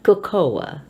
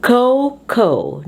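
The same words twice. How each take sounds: First: "cocoa" as kuh-KOH-uh; mispronounced example. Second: "Cocoa" as KOH-koh; first-syllable stress. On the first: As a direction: say "cocoa" in three syllables, middle one stressed. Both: Shown as a demonstration. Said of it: "not cocoa".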